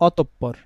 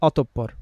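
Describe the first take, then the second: The two takes are said the same way.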